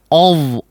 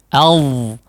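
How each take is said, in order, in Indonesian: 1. Vokalnya gelap dan membulat, seperti o. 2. Vokalnya terbuka dan jernih, seperti a. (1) "jangan mengucapkan ov" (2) "Tapi a"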